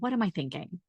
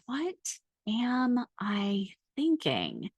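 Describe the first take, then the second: First: It is said at a normal pace. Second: It is said very slowly.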